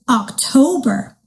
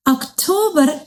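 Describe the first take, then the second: First: Said in the usual way. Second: "October" the Somali way, with a pure o; Somali pronunciation. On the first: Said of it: "They also sound very similar". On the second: Shown as a demonstration. Teacher showing kids October in Somali, Somali pronunciation. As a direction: say "October" as in Somali, short plain o. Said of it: "in Somali we say October".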